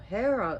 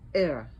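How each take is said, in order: First: It begins with an h sound. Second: It begins with a vowel, no h.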